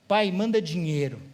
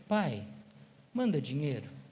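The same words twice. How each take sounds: First: It sounds like a rude, demanding order. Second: It sounds like a soft, humble plea.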